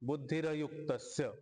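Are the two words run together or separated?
run together. The two words are run together without a break.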